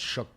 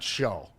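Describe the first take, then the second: First: The name has a short 'oo' vowel and final k. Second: The name ends in an open 'oh' vowel. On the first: The speaker calls it right. "It's shook" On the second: The speaker calls it wrong. "It's not show. Everybody thinks it's show"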